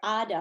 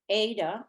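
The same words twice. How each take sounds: First: The name is said the Turkish way. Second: The name is said the English way.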